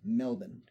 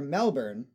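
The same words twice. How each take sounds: First: The ending is reduced with no R sound. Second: The ending is reduced but still has an R. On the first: "it is pronounced like it is spelled M-E-L-B-A-N" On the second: "which would be understandable"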